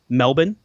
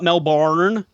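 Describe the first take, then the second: First: The second syllable is short and reduced. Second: The second syllable is full, like 'barn'. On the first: The speaker calls it right. "pronounce Melbourne correctly" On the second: The speaker calls it wrong. "There's no barn in it"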